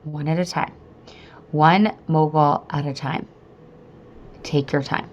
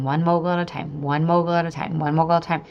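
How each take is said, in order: First: Calm mantra with long pauses; self-soothing mantra. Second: Quick, rolling repetition; focused chant, phrases run together; repeated mantra. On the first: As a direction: talk yourself down, phrase by phrase. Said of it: "I got myself a mantra". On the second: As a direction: rattle the mantra off in a steady loop. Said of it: "I just kept focusing on that". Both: Retold or imitated.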